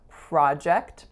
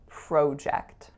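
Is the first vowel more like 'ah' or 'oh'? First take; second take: ah; oh. First: The first vowel sounds like 'ah'. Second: The first vowel sounds like 'oh'. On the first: "In the States, it tends to be ah" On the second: "In Canada, I grew up saying project"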